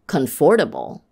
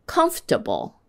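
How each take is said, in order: First: "comfortable" as con-FOR-ta-ble; wrong stress. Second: Said in the usual way. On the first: Shown as a demonstration. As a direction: push the weight onto "for" in "comfortable". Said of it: "saying one of those words with the wrong stress". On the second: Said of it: "see if you can hear the difference".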